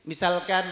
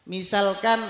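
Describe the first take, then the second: Both takes have the same delivery.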